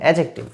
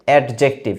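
First: The d sound is left silent. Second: The d sound is clearly pronounced. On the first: The speaker calls it right. "এখানে কিন্তু ডিটা উচ্চারিত হবে না" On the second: The speaker calls it wrong. "Maximum কিন্তু উচ্চারণ করবে অ্যাডজেক্টিভ"

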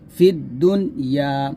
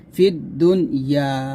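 The two takes are said the same way.

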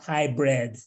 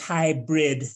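First: The second syllable is said like 'bred'. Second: The second syllable is said like 'brid'. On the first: Something to do with breeding, like a thoroughbred. The speaker calls it wrong. "not hybrid. Hybrid having to do with some sort of thoroughbred type of meeting" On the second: A meeting that is part in person, part online. The speaker calls it right. "the meeting style for the future is hybrid"

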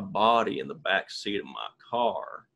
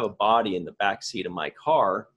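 First: It is said in a Southern accent. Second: It is said in a neutral, plain accent. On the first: The claim sounds more believable. "But if I go" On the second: The claim sounds less believable. "if I said, for example"

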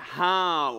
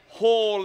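First: The word is said in an American accent. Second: The word is said in a South African accent. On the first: The speaker calls it wrong. "not hall" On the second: The speaker calls it right. "you got to say it with a South African accent"

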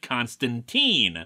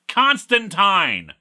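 First: The final syllable does not rhyme with wine. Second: The final syllable rhymes with wine. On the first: This is the way the films and television said it. The speaker calls it wrong. "They're wrong" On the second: This is the British way the creators say it. The speaker calls it right. "His name is pronounced Constantine"

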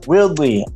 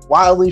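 First: The name does not sound like wildly. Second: The name sounds like the English word wildly. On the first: The speaker calls it right. "it's Willdy" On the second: The speaker calls it wrong. "I feel terrible because I've been saying it Wildly forever"

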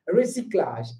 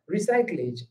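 First: It is said with French sounds. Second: It is said with English-like sounds. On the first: The speaker calls it right. "How it sounds in French" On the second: The speaker calls it wrong. "they want to read recyclage"

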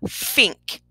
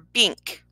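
First: The word begins with an f sound. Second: The word begins with a b sound. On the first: "but yet we keep getting fink" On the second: "or bink"

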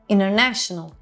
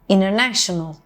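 Both takes have the same delivery.

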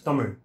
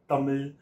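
First: The final consonant is a special R-like sound. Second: The final consonant is a plain L sound. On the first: The speaker calls it right. "it's Tamil. So the R sound is not present in any of the other languages" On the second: The speaker calls it wrong. "it's not Tamil"

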